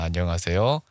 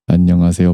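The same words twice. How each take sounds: First: The low-mid frequencies are cut to the minimum. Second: The low-mid frequencies are boosted to the maximum. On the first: "미드로우 음역대가 극한까지 깎아진 상태입니다" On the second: "지금 이게 미드로우 영역대를 극한까지 올린 상태예요"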